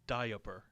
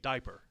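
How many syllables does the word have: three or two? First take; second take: three; two. First: It is said as three syllables, di-a-per. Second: It is said as two syllables. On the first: This matches how the word is spelled. "It's I A, ... but it's diaper" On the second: This is how people usually say it. "we all say diaper"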